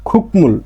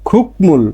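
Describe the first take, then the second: Both takes have the same delivery.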